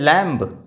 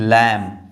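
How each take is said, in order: First: A b sound is heard at the end. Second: No b sound is heard at the end. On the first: The speaker calls it wrong. "नहीं" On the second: The speaker calls it right. "इसको पढ़ते हैं लैम"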